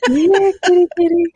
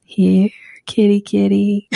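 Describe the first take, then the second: First: Higher, louder here kitty kitty call. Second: Here kitty kitty call. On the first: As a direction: sing out the call to a cat. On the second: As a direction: coax a cat over gently. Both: Shown as a demonstration. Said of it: "this little thing where you go".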